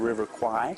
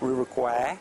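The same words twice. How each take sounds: First: The name is said with an English-style pronunciation. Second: The name is said with a Thai-style pronunciation. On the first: The speaker calls it wrong. "which is the way we pronounce as foreigners, which is mispronounced" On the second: The speaker calls it right. "It's actually River Kwai"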